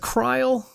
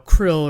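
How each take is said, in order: First: The vowel is long, like in 'isle'. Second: The vowel is short, like in 'ill'. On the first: "or is it Kryle? I've heard Kryle" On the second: "I've heard Krill"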